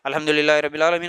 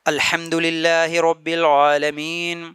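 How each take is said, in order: First: It is recited quickly without pauses. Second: It is recited slowly with calm pauses. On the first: The speaker calls it wrong. "जल्दी जल्दी नहीं पढ़ना ... गलत तरीका है" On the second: The speaker calls it right. "सुकून से रुक रुक के ठहर ठहर के पढ़ना है"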